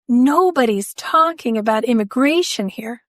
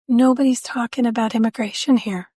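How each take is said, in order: First: It is said with more force and passion. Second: It is said in a calm, plain voice.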